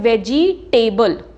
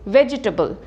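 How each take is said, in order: First: The stress falls on the 'table' ending. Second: The stress falls before the 'table' ending. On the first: The speaker calls it wrong. "Table पे stress करते हैं" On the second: The speaker calls it right. "No it is"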